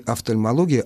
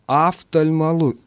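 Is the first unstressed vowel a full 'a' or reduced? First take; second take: reduced; full a. First: The unstressed first vowel is reduced and indistinct. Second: The unstressed first vowel is a full, clear 'a'. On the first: The speaker calls it right. "Возникает не офтальмология" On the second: The speaker calls it wrong. "у нас начинает звучать «а» полного образования"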